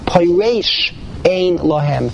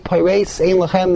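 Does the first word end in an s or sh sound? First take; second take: sh; s. First: The first word ends with an sh sound. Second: The first word ends with an s sound. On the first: There is no one to explain why there is no food. "you can read it with a shin" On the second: There is no one to hand them bread. "read it with a sin"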